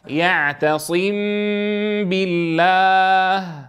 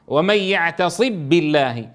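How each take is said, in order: First: The m is hidden with a nasal hum. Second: The m is merged fully into the b. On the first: The speaker calls it right. "طيب الإخفاء كيف نفعل؟" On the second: The speaker calls it wrong. "إذا أدغمنا الميم في الباء تصبح"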